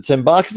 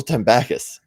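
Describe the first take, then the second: First: "Tembarkus" with a long AR in the middle; "Tembarkus", rhyming the middle with "park"; first pronunciation. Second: "Tembakis" with a short A in the middle; "Tembakis", rhyming the middle with "pack"; alternative pronunciation. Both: Shown as a demonstration. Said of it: "Is it Tembarkus or Tembakis".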